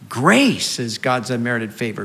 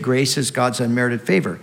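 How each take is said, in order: First: The stress falls on the word grace. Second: The stress falls on the word unmerited. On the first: Grace is an abundant gift of favor. "we'd also need to put the emphasis on grace" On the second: Grace is something we did not earn. "the emphasis there is on the unmerited part"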